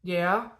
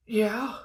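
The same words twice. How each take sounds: First: Imitated child settling, still high; a slightly steadier mock-tearful answer; calming down. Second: Put-on high, whimpered child's answer; mock tearful. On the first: Daughter calming down as dad questions her, less tearful. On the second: Still-upset daughter answering dad, high mock-tearful. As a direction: imitate a still-crying kid, pitched way up. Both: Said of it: "and now she's calming down".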